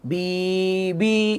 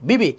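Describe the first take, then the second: First: The syllables are said slowly with a gap. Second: The syllables are said quickly and joined. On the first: The speaker calls it wrong. "এখন যদি কেউ এভাবে পড়ি ... ভুল" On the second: The speaker calls it right. "কেন তাড়াতাড়ি পড়বো?"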